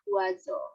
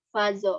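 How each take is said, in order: First: The word begins with a w sound. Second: The word begins with a v-like sound. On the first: The speaker calls it right. "melainkan dibacanya wazo" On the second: The speaker calls it wrong. "Jadi bukan"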